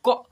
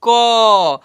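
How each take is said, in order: First: The k sound is said without a vowel. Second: The k sound is followed by a vowel. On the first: It is a half letter. "क ऐसे पढ़ेंगे" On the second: It is a full letter. "पूरा पूर्ण रूप से उच्चारण करेंगे"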